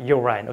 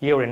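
First: The last syllable sounds like 'ine'. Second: The last syllable sounds like 'in'. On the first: The speaker calls it wrong. "not urine" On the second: The speaker calls it right. "the correct pronunciation of this word is urine okay"

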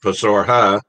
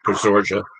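First: The j is pronounced as an h sound. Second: The j is not pronounced as an h sound. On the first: This is the usual pronunciation most people use. "most people call it Pasorha because this J is usually pronounced as an H" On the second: This is the local pronunciation used in the town. "the locals are, for whatever reason, call it Pasorja"

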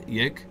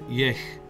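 First: It ends in a hard, solid g sound. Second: It ends in a guttural, throaty g sound. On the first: "like a Y sound, yik? Or is the G solid like that?" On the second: "pronounce the G sometimes with a guttural sound"

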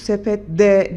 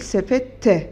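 First: The suffix begins with a voiced d sound. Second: The suffix begins with a voiceless t sound. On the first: The speaker calls it wrong. "Yani bizim sözcüğümüz sepet D değil" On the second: The speaker calls it right. "sepet T olacak"

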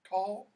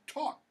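First: The L sound is pronounced in the word. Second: The L is silent, rhyming with tock. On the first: "Some of you I'm hearing talk" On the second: "Like tick tock"

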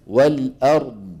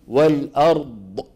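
First: The word stops cleanly on the final consonant. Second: An extra sound follows the final consonant. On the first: The speaker calls it right. "والأرض بس" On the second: The speaker calls it wrong. "ما في داعي نقول والأرض. سمعانين هذه ض، ... هذا صوت زائد"

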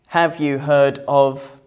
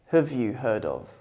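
First: 'Have' is said in its full, strong form. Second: 'Have' is reduced to a weak form with schwa.

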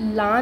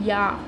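First: The syllable begins with an L sound. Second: The syllable begins with a Y sound. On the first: The speaker calls it wrong. "ला नहीं पढ़ेंगे" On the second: The speaker calls it right. "पढ़ेंगे या"

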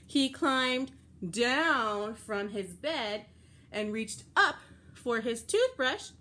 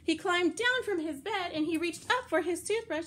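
First: It is said at a slower pace. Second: It is said at a faster pace.

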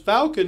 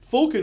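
First: Falcon is said with an American pronunciation. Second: Falcon is said with a British pronunciation. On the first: "Falcon is American" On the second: "Falcon is the British pronunciation"

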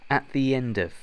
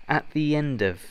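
Both takes have the same delivery.

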